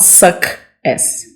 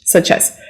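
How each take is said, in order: First: Softly said wrong suck as. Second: Such as, CH clearly hissed; whispered such as. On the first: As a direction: suck as with a hard K. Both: Shown as a demonstration. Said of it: "not suck as".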